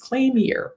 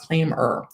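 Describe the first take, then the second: First: The name ends with the sound of 'year'. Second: The name ends with a short 'er' sound. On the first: The name is read as claim plus year. "in my mind, it's claim year" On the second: This is how the company says its name. "they tell me it's claimer"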